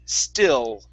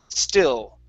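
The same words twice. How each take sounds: Both takes have the same delivery.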